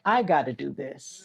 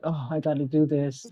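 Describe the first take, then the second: First: "I" leaned on hard, the line ending on a rise; stress on I. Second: Weary "Oh", then "do" weighted in "I gotta do this"; stress on do. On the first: Mother bracing herself alone, stress on "I". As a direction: make "I" the weight of the whole line, then lift the end. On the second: Tired mom up early for work, sleepy stress on "do". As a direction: drag yourself out of bed and lean on "do". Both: Retold or imitated. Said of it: "the emphasis on different words".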